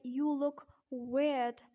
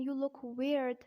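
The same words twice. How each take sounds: First: Slow British "weird" with the R dropped; slow British-accent demo. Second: American "weird" with a sounded R; American-accent demo. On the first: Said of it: "in British accent". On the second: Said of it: "in American accent". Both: Shown as a demonstration.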